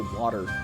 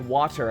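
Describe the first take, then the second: First: The middle t sound is soft and flapped. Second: The middle t sound is crisp and clear. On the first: "I say water... soft consonant thing that apparently is a southern thing" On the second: "I don't say water"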